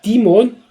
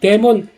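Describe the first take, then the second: First: The first vowel sounds like 'ee', English style. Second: The first vowel sounds like 'eh', Korean style. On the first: The speaker calls it right. "본토 발음을 할게요" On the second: The speaker calls it wrong. "죄송합니다"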